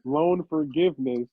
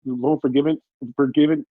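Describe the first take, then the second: First: "Loan forgiveness" sounded out slowly and in full; careful pronunciation. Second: "forgiven" fumbled, the ending of forgiveness lost; stumbling mispronunciation. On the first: Podcaster getting it right after being coached, careful slow "forgiveness". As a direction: take "forgiveness" slowly, right to its last syllable. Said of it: "There you go". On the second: Podcaster struggling to say loan forgiveness, stumbling on "forgiven". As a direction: trip over "forgiven", trying it twice. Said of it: "Motherfucker can't speak English". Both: Real, not acted.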